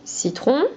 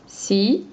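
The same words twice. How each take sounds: First: Said in the usual way. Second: "Citron" pulled apart: ci, long pause, tron; syllables detached. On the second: Shown as a demonstration. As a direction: say "Citron" as two syllables, ci rising, then wait. (« Citron » décroché : ci, longue pause, tron) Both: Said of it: "On décroche".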